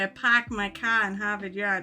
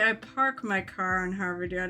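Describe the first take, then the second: First: The R sounds are dropped, Boston style. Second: The R sounds are clearly pronounced. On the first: This is a put-on Boston accent. "I don't say" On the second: This is how the speaker really talks. "I say"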